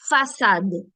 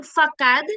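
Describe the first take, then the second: First: Façade with an s sound, "fa-SAD"; soft-C façade. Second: Facade with a hard k, "fa-KAD"; wrong hard-C facade. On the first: Teacher correcting for students, façade with soft S. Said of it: "it's façade". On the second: Teacher showing the mistake, facade with hard K. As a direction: say facade with a K in the middle. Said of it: "Instead of being facade". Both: Shown as a demonstration.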